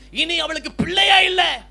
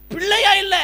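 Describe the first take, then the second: First: Shouted, slowed, a grieving declaration; emphatic cry. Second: Higher and louder echo of பிள்ளையா இல்ல; stronger cry. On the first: Preacher to congregation about the childless widow, a loud slow cry. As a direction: call it out slowly to the congregation. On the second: Preacher echoing the widow's loss, a higher, louder ringing cry. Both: Acted.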